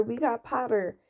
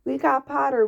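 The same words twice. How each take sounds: First: Said in the usual way. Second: Loud, higher cheer; twins yelling. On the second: A narrator's reading. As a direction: yell it across the hall in triumph. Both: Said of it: "the Weasley twins yelled".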